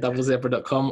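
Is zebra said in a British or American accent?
British. Zebra is said the British way.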